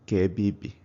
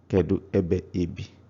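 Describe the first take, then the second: First: Sounds drop out, leaving a shortened phrase. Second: Every syllable of the phrase is said in full.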